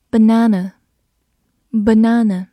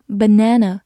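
First: "Banana" with a long British "ah" in the middle; British pronunciation. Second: "banana" with an American flat "a" as in "cat"; American pronunciation. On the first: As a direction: say "banana" as buh-NAH-nuh. (英式发音，中间读长音“啊”) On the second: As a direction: say "banana" as buh-NAN-uh. (美式发音，中间读梅花音) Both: Shown as a demonstration. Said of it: "或者美式发音banana也是可以的".

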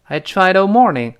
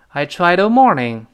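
The two takes are said the same way.

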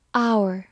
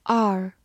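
First: "Our" as two sounds, OW-er; "Our" with a gliding OW-er vowel; first pronunciation. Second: "our" as one vowel, like "are"; "our" with an open AR sound; alternative pronunciation. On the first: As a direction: say "Our" like "hour". First of two readings shown. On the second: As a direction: say "our" to rhyme with "car". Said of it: "或者读作". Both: Shown as a demonstration.

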